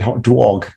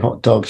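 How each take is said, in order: First: It is said in a New York American accent. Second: It is said in a plain, neutral accent. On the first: "you said hot dog" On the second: "you didn't say hot dogs"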